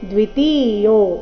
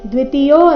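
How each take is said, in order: First: The vowels of ti and yo are long. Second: The vowels of ti and yo are short. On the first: The speaker calls it right. "ತಿ ಮತ್ತೆ ಯೋ ಎರಡನ್ನೂ ದೀರ್ಘ ಹಾಡಬೇಕು" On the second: The speaker calls it wrong. "ದ್ವಿತೀಯೋ ಅಂತ ಇಲ್ಲ"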